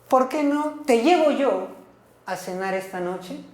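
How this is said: It is said in a reproachful, complaining tone. It is a complaint about whom the listener would go with. "Este es casi como un reclamo"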